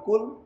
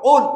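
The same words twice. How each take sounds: First: It starts with a plain front k. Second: It starts with a deep back-of-throat k. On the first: It means eat. The speaker calls it wrong. "কুল মানে খাও" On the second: It means say. The speaker calls it right. "সবাই বলি কুল"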